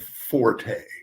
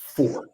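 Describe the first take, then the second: First: The word ends with an extra vowel. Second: The word ends on the t sound. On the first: The speaker calls it wrong. "call him Forte. That that is wrong" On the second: The speaker calls it right. "the correct pronunciation of number four is Fort"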